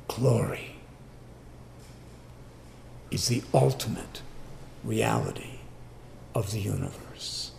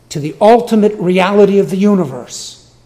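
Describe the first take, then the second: First: Softer and softer, "reality" breathed without voice; sinking from soft speech into a breath; hushed. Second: "ultimate" driven high and loud, the whole phrase proclaimed; preacher pressing the point home, loud and high; emphatic proclamation. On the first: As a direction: let it fall to a reverent near-whisper. Sermon phrase drops to hush. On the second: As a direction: ring it out over the congregation, higher and louder. Emphatic sermon climax. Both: Real, not acted.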